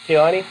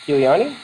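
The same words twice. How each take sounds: First: Kiliani in three syllables, Kei-la-ni; corrected name. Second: Kiliani with four syllables, Ki-li-a-ni; extra syllable. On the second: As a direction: say Kiliani as Ki-li-a-ni, one syllable too many. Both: Real, not acted. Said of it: "I put extra syllable in there".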